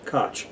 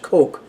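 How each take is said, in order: First: The name rhymes with the word scotch. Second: The name sounds like the word coke. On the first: This is how the man himself pronounced it. "so that it rhymes with Scotch" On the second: This is the usual American pronunciation. "in American versions of English is pronounced Coke"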